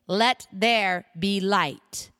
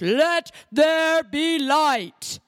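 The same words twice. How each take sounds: First: It is said in a normal, everyday voice. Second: It is said in a grand, God-like voice. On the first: "now I don't have the God tone, do I?" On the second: "Maybe I should say it like this"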